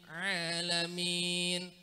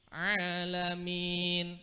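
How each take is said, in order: Both takes have the same delivery.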